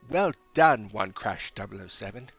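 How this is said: It is said in a British accent.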